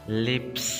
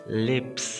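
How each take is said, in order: Both takes have the same delivery.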